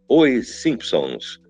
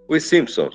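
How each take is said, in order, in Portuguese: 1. O título é dito separadamente, sílaba por sílaba. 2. O título é dito de forma fluida, emendado. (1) "o título tem que ser mais silabado" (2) "Você não vai falar"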